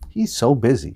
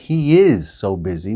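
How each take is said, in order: First: The word 'is' is contracted to 'he's'. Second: The word 'is' is said in full. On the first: "we say" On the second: "Instead of saying"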